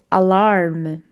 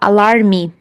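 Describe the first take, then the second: First: The word ends cleanly on the final consonant. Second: An extra "ee" vowel is added at the end. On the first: The speaker calls it right. "vai prestar atenção e vai dizer alarm" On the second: The speaker calls it wrong. "colocar ali um som de i, e aí fica alarme"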